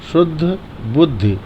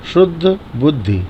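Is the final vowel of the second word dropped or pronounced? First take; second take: pronounced; pronounced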